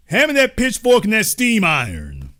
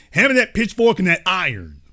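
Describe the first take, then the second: First: Mock barber call, bigger. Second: Mock barber call. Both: Mock barber, repeated louder.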